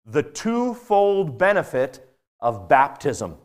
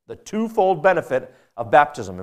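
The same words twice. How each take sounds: First: "the twofold benefit of baptism" spelled out slowly, each word weighted; slow title announcement. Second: Said in the usual way. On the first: Shown as a demonstration. Preacher naming his sermon section, slow and deliberate. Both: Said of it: "and I've called it".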